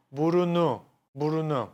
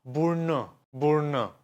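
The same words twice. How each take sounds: First: Burunu with all three vowels kept, bu-ru-nu; wrong full form. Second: Burnu in two syllables, bur-nu; vowel dropped. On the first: Teacher showing the wrong form, no vowel dropped. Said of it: "I'm not saying". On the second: Teacher showing the right form, vowel dropped. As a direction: drop the middle u and say burnu. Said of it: "No, I'm gonna say". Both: Shown as a demonstration.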